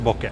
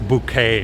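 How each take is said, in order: First: The word is said like boh-keh. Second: The word is said like boo-kay. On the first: The speaker calls it right. "in Japanese it's pronounced Boke" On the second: The speaker calls it wrong. "not bouquet or anything like that"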